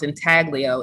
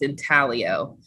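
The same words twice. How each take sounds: First: The g sound is pronounced in the middle. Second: The g sound is silent in the middle. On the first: The speaker calls it wrong. "it's not it's not um, pronounced intaglio" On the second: The speaker calls it right. "the G is silent"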